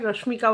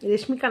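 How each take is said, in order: First: The first syllable is said as 'Rosh'. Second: The first syllable is said as 'Resh'. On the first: The speaker calls it right. "রশ্মিকা ওয়ান্দনা হবে" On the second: The speaker calls it wrong. "রেশমিকা না"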